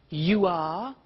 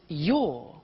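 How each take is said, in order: First: It is said as two full words. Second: It is said as one contracted syllable.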